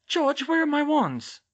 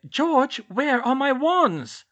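First: High, loud, drawn-out demand; urgent. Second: Insistent, loud and very slow; urgent. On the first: Hermione finding her wands missing, urgent demand to George. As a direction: demand it urgently, voice pitched right up. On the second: Hermione pressing George about her wands, slow urgent demand. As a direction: climb high and stretch out the demand. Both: A narrator's reading. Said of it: "she said urgently".

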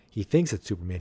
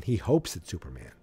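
First: "thinks" stressed above the other words. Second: "hopes" stressed, then falling away. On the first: Recapping the caller's belief, stress on "thinks". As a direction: lean on "thinks" to set up a contrast. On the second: Puzzling over the caller's wish, stress on "hopes". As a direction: punch "hopes" as the surprising word. Contrasts hoping with thinking. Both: Real, not acted.

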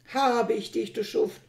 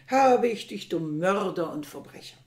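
First: Loud angry cry of triumph; shouting. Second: Furious shout hammered home; louder shout. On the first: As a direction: yell it at the man he has caught. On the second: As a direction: bellow the accusation at full force. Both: A narrator's reading. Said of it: "schrie er mit lauter Stimme".

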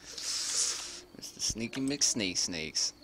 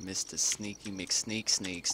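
First: Each word stretched way out; mocking nickname very slow. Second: Slow, teasing drawl on the nickname; mocking nickname. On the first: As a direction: drag out "Mister Sneaky McSneak Sneaks" teasingly. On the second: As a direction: savor the silly name mockingly. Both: Real, not acted.

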